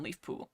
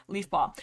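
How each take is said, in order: First: Leaf Poo- with the vowel as in poo; "Leaf Poo-" said with an oo vowel instead of paw; slip of the tongue. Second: Said in the usual way. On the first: Real, not acted. Reader slipping on the name, Leaf Poo-. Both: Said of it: "If I say Leaf Poo one more time".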